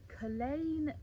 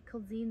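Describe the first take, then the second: First: The name is said in the local way. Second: The name is sounded out as it is spelled. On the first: The speaker calls it right. "hopefully I'll get it right every time" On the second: The speaker calls it wrong. "pronouncing it completely wrong"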